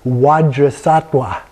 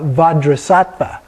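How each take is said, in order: First: Both consonants are said as W sounds. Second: Both consonants are said as V sounds. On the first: This is the Tibetan pronunciation. "two W's" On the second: This is the Sanskrit pronunciation. "two V's"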